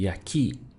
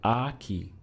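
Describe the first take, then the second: First: The stress is on the second syllable. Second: The stress is on the first syllable.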